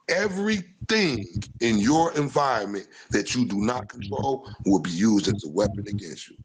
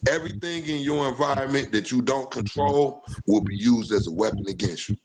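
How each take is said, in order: First: It is said slowly and deliberately. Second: It is said at a normal pace.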